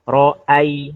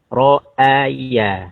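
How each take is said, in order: First: The glottal stop runs into the following ya. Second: The glottal stop stays apart from the following ya. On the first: The speaker calls it wrong. "menyenggol atau menekan ya. Ro'ai, nah tidak boleh" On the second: The speaker calls it right. "jangan sampai eh, nabrak huruf berikutnya"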